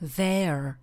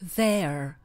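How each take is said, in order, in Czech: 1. Vyslovuje se s americkým přízvukem. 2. Vyslovuje se s americkým přízvukem.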